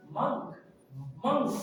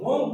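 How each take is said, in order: First: MONK with an uh vowel, like munk; careful model of MONK; right pronunciation. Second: MONK with an o, as monk is spelt; louder misreading of MONK; wrong pronunciation. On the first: Teacher correcting the spelling reading, right pronunciation. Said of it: "the right pronunciation is". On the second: Teacher quoting what we usually say, wrong pronunciation. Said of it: "it is wrong pronunciation". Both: Shown as a demonstration.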